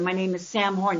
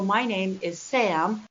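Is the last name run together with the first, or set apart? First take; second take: run together; set apart. First: Both names are run together quickly without a pause. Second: A pause, then the last name is said louder. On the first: Listeners do not catch the name. The speaker calls it wrong. "if I put my first and last name together" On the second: Listeners can repeat the name after hearing it. The speaker calls it right. "pause, pause, pause, punch, Horn. The last name is louder"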